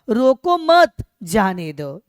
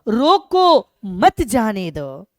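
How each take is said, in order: First: There is a pause after मत. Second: There is a pause after रोको.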